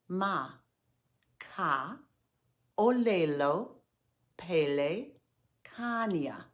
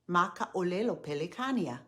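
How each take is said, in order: First: It is said slowly, syllable group by group. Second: It is said faster, as one connected phrase. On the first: "Say it slowly after me" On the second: "Now say it a bit faster"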